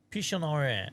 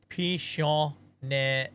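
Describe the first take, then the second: First: Pichonere said at normal speed, falling at the end; quick retry. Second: Pichonere said very slowly, syllable by syllable; careful pronunciation. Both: Shown as a demonstration. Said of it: "No, I got it wrong again".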